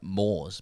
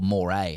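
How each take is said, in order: First: It is said the way the spelling reads. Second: It ends with an 'ay' vowel sound. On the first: The speaker calls it wrong. "I always read it at M O R E S" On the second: The speaker calls it right. "heard Roy say um, it- like the cultural moray, and I was like, "Fuck, is that how you say it?""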